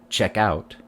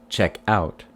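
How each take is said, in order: Both takes have the same delivery.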